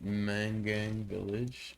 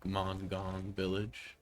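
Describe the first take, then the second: First: The name is said without an 'ong' sound. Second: The name is said with an 'ong' sound. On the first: "I hope I didn't butcher that pronunciation" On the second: "Maybe it's more of a Ong"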